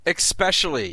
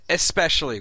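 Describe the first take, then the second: First: The word starts with an 'ex' sound. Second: The word starts with an 'es' sound. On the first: The speaker calls it wrong. "It is not especially. ... Not an X" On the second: The speaker calls it right. "It is especially with an S"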